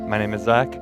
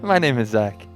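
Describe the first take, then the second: First: It is said plainly, without extra enthusiasm. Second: It is said with added enthusiasm.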